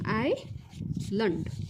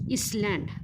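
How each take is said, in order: First: No s sound is heard in the middle. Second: An s sound is heard in the middle. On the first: The speaker calls it right. "यस हा silent आहे" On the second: The speaker calls it wrong. "तुम्ही नेहमीच म्हणता चुकीचा"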